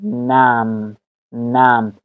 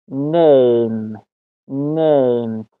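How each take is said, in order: First: نم as "nam", with the open A of "cat"; short A pronunciation. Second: نیم drawn out slowly as "name"; long A pronunciation. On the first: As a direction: say نم with a short A, no glide. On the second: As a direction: stretch the "ay" diphthong in نیم. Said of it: "مطابق قانون دوم". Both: Shown as a demonstration.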